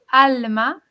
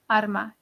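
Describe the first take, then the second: First: It is said with an L sound before m. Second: It is said with an R sound before m. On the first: "la palabra alma con L" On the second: "si pronunciamos esa L como una R"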